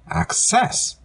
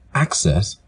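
First: The stress is on the second syllable. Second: The stress is on the first syllable. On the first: It is used as a verb. "The verb form access has the stress in the second syllable" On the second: It is used as a noun. "The noun form axes has the stress in the first syllable"

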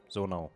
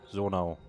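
The two takes are said the same way.

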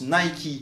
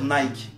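First: It is said with an English pronunciation. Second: It is said with a French pronunciation. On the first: "en anglais, ça se prononce Nike" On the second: "pourquoi en français on va dire Nike?"

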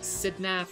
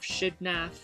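First: The name begins with an s sound. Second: The name begins with a sh sound.

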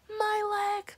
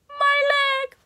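First: It is screamed in the speaker's normal voice. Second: It is screamed in the SpongeBob guy's voice.

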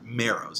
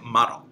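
First: The name is pronounced the English way. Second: The name is pronounced the Japanese way. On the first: "that's the English pronunciation" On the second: "since we're in Kamigawa, I'm saying Maro"

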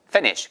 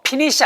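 First: The word begins with a clear F sound. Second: The word begins with a P-like sound. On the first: The speaker calls it right. "F 발음 살려서 위에 치아가 아래 입술 안쪽에" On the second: The speaker calls it wrong. "피니시 아니고"

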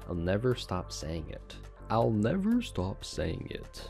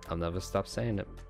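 First: It is said with a standard, careful accent. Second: It is said with a Boston-like accent. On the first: "Look at me talking proper" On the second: "I feel like I had like a Boston accent right there"

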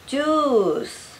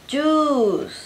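The two takes are said the same way.

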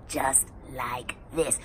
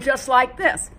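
First: The voice sounds rough and deep in the throat. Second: The voice resonates in the mouth and jaw.

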